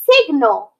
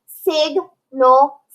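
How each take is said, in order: First: Said in the usual way. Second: Sig, then nal, split apart; split into syllables. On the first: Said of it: "so then they both say a sound". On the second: Shown as a demonstration. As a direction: sound out each syllable separately. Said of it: "we split the word in between those two letters".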